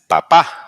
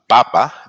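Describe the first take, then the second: First: The stress is on the last syllable. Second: The stress is on the first syllable. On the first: It means dad. "Dad is papa, P A P A with an accent mark on this on the last" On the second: It means potato. "potato is uh, papa, P A P A, no accent mark"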